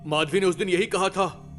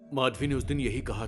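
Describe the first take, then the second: First: It is said loudly. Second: It is said quietly.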